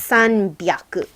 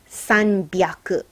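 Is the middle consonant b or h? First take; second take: b; b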